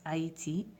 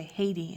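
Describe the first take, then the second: First: "Haïti" with silent H and separate A and I; "Haïti" in French, three syllables; French pronunciation. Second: Said in the usual way. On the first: Shown as a demonstration. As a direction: say "Haïti" as ah-ee-tee. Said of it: "A I all of a sudden changes to A I". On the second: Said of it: "how you say Haiti in French".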